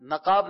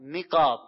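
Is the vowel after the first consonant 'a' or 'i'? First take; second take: a; i. First: The first vowel is an 'a' sound. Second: The first vowel is an 'i' sound. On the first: The speaker calls it wrong. "نقاب نہیں ہے" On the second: The speaker calls it right. "نون کے زیر کے ساتھ ہے نقاب"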